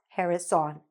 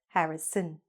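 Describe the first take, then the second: First: The last syllable has a full 'on' vowel. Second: The last syllable has a weak, reduced vowel. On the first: The speaker calls it wrong. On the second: The speaker calls it right.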